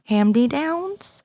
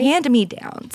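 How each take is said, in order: First: The first part sounds like 'hamdy', blurred together. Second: The first part is said clearly as 'hand me'. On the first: The speaker calls it wrong. "She's saying Hamdy" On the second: The speaker calls it right. "that's right"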